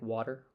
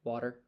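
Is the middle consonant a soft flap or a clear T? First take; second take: soft flap; soft flap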